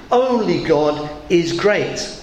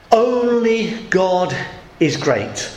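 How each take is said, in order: First: Only God is great, slow and even; slow emphasis. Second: Slow stress on Only; emphatic declaration. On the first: Preacher repeating the bishop's words slowly. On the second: Bishop declaring over the king's coffin, slow and solemn. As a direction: draw out Only, then drop on is great. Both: Retold or imitated. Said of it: "the bishop was emphasising".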